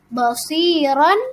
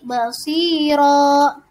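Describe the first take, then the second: First: The word ends with a final n sound. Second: The word ends on a long a vowel.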